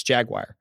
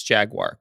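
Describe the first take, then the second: First: "jaguar" slurred into "jag-wire"; casual pronunciation. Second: "jaguar" read as "jag-war"; careful pronunciation. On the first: Flying through a conversation, "jaguar" as "jag-wire". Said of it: "if I'm just flying through a conversation". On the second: Slowing down to read the word, "jaguar" as "jag-war". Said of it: "If I slow down and stare at the word". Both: Shown as a demonstration.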